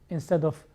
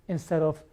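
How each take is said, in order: No difference in how they are said.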